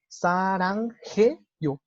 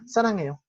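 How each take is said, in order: First: It is said slowly with the h sound heard. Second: It is said quickly with the h sound dropped. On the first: "como muy lentamente, sí suena la J" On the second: "lo dicen muy rápido, ni siquiera se alcanza a percibir"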